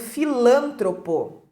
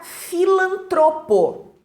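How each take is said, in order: First: The stress is on the second syllable. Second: The stress is on the third syllable. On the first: The speaker calls it wrong. "colocando lá a sílaba tônica no lã" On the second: The speaker calls it right. "palavra paroxítona"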